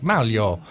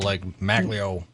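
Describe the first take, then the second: First: The name is said with its native pronunciation. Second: The name is said with an anglicized pronunciation. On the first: This is how the name's owner says it. The speaker calls it right. "how do you say your name? And he's like" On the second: This is how Americans have been saying it. The speaker calls it wrong.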